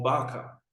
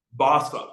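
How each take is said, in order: First: "Barca" with a K sound, Bar-ka; hard-C pronunciation. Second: "Barca" with an S sound, Bar-sa; soft-C pronunciation. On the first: Teacher gives another option, "Barca" said as Bar-ka. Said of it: "or Barca". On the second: Teacher lists an option, "Barca" said as Bar-sa. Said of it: "You can say Barca". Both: Shown as a demonstration.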